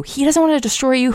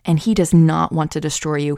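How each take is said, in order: First: Doesn't pushed much higher, pressing it home; stress on doesn't. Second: Said in the usual way. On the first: Acted. Preacher to viewers, insisting God won't destroy them, emphatic high stress on "doesn't". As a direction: lean hard on "doesn't", voice jumping up high. Repeats line, second more emphatic.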